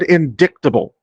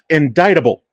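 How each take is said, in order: First: The C in the word is pronounced. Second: The C in the word is silent. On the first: The speaker calls it wrong. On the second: The speaker calls it right.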